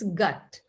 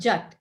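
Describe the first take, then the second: First: The word starts with a hard G sound. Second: The word starts with a soft J sound. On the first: The speaker calls it right. "it's gut" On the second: The speaker calls it wrong. "it's not jut"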